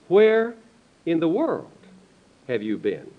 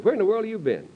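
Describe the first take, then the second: First: The word world carries strong stress. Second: The word world carries no special stress. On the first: A question about which part of the world someone has served in. The speaker calls it right. "the emphasis is" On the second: A casual question about someone's whereabouts. The speaker calls it wrong. "Which is a good question"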